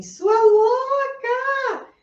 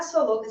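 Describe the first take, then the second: First: High, drawn-out mock scream from the sole of the foot. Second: Said in the usual way. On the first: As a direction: let the foot shriek "Sua louca!" long and high. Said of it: "a sola do seu pé tá gritando assim". (grito agudo e arrastado, de brincadeira) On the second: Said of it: "Quando ela gritar".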